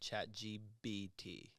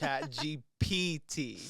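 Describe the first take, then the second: First: The third letter is said as a B. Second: The third letter is said as a P. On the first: The speaker calls it wrong. "I think I was saying Chat G B T" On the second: The speaker calls it right. "It's P"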